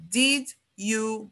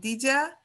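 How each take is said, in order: First: The two words are said separately and clearly. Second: The second word is reduced to a short 'ya'. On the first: "nunca, nunca ele é pronunciado assim" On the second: "Em alguns sotaques, em algumas pronúncias, até viram um ya"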